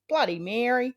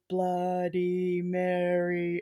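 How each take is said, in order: First: It is said in an Australian accent. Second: It is said in an American accent. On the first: It sounds like cursing her. "in Australia, it's just like" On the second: It sounds spooky. "Like in America, they do the"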